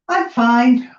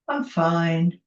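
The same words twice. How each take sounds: First: The tone sounds content and positive. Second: The tone sounds flat and lukewarm. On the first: Things are genuinely good. "We know we're in a good place. Lynn's fine, she's in a good space" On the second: Things are only average. "Which means it's sort of average, maybe it could be better, could be worse"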